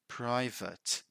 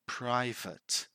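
First: The second syllable sounds like 'vit'. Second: The second syllable sounds like 'vit'.

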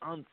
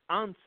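First: It is said as one syllable, like wuns. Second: It is said as two syllables, like on-seh. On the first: It is the English word for one time. The speaker calls it wrong. "don't say once" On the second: It means eleven in Spanish. The speaker calls it right. "number 11 is pronounced once"

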